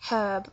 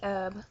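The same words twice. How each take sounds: First: The H at the start is pronounced. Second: The H at the start is silent. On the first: "We don't say herb" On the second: "We don't say the H"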